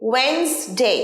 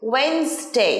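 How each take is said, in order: Both takes have the same delivery.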